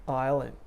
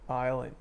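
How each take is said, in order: No difference in how they are said.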